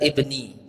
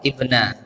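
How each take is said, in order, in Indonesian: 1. Kata ini berakhir dengan vokal 'i'. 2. Kata ini berakhir dengan vokal 'a'. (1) "Yang benar ibni" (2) "itu tulisannya ibna ya"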